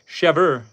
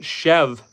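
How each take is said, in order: First: The word ends with an audible R sound. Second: The word ends without any R sound. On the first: This is how French speakers say it. "in French, it's chèvre" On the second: This is how English speakers say it. "In English, we don't pronounce the R E, we just pronounce it chev"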